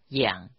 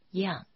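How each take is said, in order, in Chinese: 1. “养”读第三声。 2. “养”读第四声。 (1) "养是读作第三声" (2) "读作第四声样"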